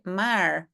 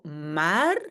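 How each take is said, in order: First: The final r sounds like an English r. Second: The final r is soft, Belgian style. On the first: "prononcer comme on le fait en anglais" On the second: "en Belgique plutôt maar"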